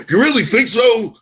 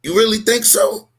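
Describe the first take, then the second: First: Higher, louder emphatic challenge falling at the end; dramatic repeat. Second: Higher rhetorical challenge rising at the end; dramatic rhetorical question. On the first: Repeating the challenge to his co-host, louder and emphatic. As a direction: hammer the rhetorical question home, dramatic. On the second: Challenging his co-host with a rhetorical question, dramatic rising tone. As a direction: throw it back as a dramatic rhetorical dare. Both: Acted. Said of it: "I'm being dramatic".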